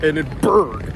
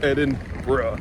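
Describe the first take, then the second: First: The ending sounds like 'burg'. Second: The ending sounds like 'bruh'. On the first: The speaker calls it wrong. "It's not Edinburgh" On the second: The speaker calls it right. "you say, bruh"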